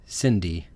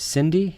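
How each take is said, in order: First: Cindy stated flatly, falling, now sure; settled name. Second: Cindy? asked with a rising, questioning tune; Cindy said high and uncertain, rising at the end; unsure name. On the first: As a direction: land on Cindy, decided. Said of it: "Cindy? Sydney?". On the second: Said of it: "Sydney? Cindy". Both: Shown as a demonstration.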